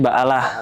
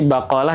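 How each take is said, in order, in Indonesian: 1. Konsonan tengahnya hamzah. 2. Konsonan tengahnya bunyi seperti k. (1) "kalau orang Mesir kan qaf itu dibacanya alif. Hamzah" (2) "dari kata bakolah"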